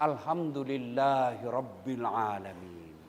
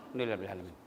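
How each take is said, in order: First: Slow, low, deliberate reciting; proper slow recitation. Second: "Alhamdulillahirabbil alamin" swallowed into a quick soft mumble; mumbled rushed. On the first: Preacher demonstrates proper thanks, slow low recitation. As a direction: say each syllable of "Alhamdulillahirabbil alamin" slowly and clearly. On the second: Preacher mocks careless worshipper, quick soft mumble. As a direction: gabble "Alhamdulillahirabbil alamin" fast and low. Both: Shown as a demonstration. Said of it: "Jangan kau bilang".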